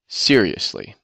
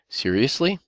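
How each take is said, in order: First: The emphasis falls at the start of the word. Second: The emphasis falls at the end of the word. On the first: The speaker is disgusted with something. "we put the emphasis at the beginning" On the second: It is asked as a question. "if we put the accent at the end of the word"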